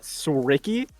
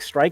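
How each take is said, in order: First: The name ends with an added 'ee' sound. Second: The name is one syllable with no final 'ee'. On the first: The speaker calls it wrong. "and not Sricky" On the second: The speaker calls it right. "supposed to be said like Strike"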